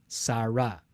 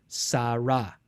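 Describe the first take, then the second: The two takes are said the same way.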